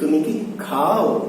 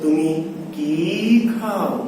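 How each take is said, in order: First: The word 'ki' is said quickly and short. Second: The word 'ki' is drawn out and long. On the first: "কি কে কোনোভাবে টানা যাবে না, যত দ্রুত যত শর্ট পারেন শেষ করবে" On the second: "আর এরকম যদি বাক্য থাকে"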